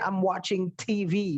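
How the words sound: The V sounds like a native English speaker's. The speaker calls it right. "Bule itu bilangnya"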